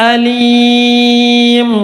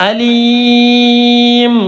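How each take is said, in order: No difference in how they are said.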